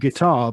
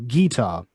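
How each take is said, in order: First: The stress is on the second syllable. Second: The stress is on the first syllable. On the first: "not guitar" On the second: "stress on the first syllable"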